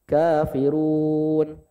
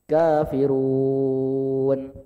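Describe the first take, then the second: First: The long vowel is held for four counts. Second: The long vowel is held for six counts.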